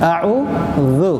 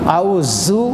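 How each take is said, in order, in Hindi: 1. dh की आवाज़ बिना सीटी के नरम है। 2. dh की आवाज़ सीटी के साथ कड़ी है। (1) "बल्कि नरमली के साथ" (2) "अऊज़ु नहीं होना चाहिए"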